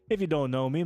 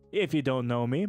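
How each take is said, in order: First: It is read quickly, with little spacing. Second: It is read slowly, with words spaced out. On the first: The speaker calls it wrong. "I'm reading that too fast" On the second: The speaker calls it right. "I had to space out"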